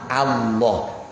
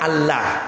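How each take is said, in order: First: The L sound is heavy and thick. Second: The L sound is light and thin. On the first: "dibaca tafkhim"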